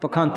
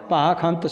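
First: The first vowel is short. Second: The first vowel is long. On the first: The speaker calls it wrong. "ਪਖੰਤ ਨਹੀਂ ਪੜ੍ਹਨਾ" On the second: The speaker calls it right. "ਪੱਬੇ ਨੂੰ ਕੰਨਾਂ ਲਾ ਕੇ ਪਾਖੰਤ ਸੋ ਹੈ"

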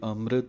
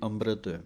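First: The middle consonant sounds like m. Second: The middle consonant sounds like b. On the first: "ਇੱਕ ਵਾਰੀ ਅੰਮ੍ਰਿਤ" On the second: "ਦੂਸਰਾ ਬੱਬੇ ਦੇ ਨਾਲ ਹੈ"

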